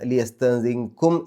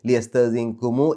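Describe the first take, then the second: First: The word ends on a closed m sound. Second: The word ends with an added u vowel. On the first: "ലിയസ്തഅ്സിൻകും എന്നുള്ളത്" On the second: "ലിയസ്തഅ്സിൻകുമു എന്നാക്കിയത്"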